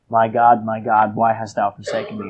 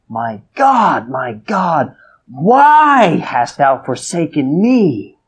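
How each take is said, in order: First: The phrase is said quietly and subdued. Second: The phrase is cried out loudly. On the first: The cry is downplayed. The speaker calls it wrong. "I don't think he said" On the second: The cry is one of anguish that everybody heard. The speaker calls it right. "I think he said it like that. And it says, and he cried out with a loud voice"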